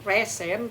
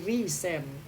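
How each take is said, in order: First: The first vowel sounds like 'eh'. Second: The first vowel sounds like 'ee'. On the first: The speaker calls it wrong. "bukan resend" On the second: The speaker calls it right. "tapi resend"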